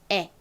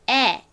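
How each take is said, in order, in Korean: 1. 이 모음은 입을 거의 벌리지 않고 발음합니다. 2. 이 모음은 입을 크게 벌리고 발음합니다. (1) "입을 크게 벌리지 않고 그냥 에" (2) "입을 좀 크게 벌려서 발음하는 에"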